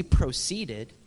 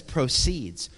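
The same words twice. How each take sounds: First: "proceeded" drawn out, past-tense ending made clear; stress on the ending of proceeded. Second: "proceeds" drawn out slowly on its second syllable; slow, emphatic "proceeds" as the correct word; stress on PROCEEDS. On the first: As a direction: slowly set apart "proceeded" as the wrong word. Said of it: "It didn't say proceeded". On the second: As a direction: lean on the long "-ceeds" in "proceeds". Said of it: "It says proceeds". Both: Shown as a demonstration.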